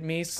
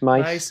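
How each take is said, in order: First: The vowel sounds like 'ee', as in 'geese'. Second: The vowel sounds like 'eye', as in 'mice'. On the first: "I've heard people say Meese is the right way" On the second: "looks like mice"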